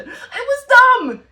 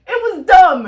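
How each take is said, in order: First: Slow, much higher and louder, laughing; laughing shout. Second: Louder and higher through laughter; laughing shout. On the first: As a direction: drag it out and yell it through laughter. Laughing verdict on the movie. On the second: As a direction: yell it again while laughing. Repeated laughing verdict. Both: Real, not acted.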